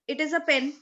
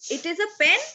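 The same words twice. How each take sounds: First: It is said as a statement, falling. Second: It is said as a question, rising.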